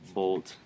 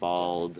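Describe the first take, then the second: First: The vowel is 'oh' and it ends in T. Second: The vowel is 'ah' and it ends in D. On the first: The speaker calls it wrong. "like you were saying this bolt" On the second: The speaker calls it right. "but it's bald"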